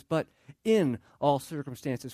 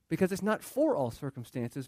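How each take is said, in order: First: "in" leaned on, slow and deliberate; stress on IN. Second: Said in the usual way. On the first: Shown as a demonstration. Pastor stressing "in" to his congregation, slow and firm. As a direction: land hard on the word "in". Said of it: "And I emphasize the word "in". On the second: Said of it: "And I emphasize the word".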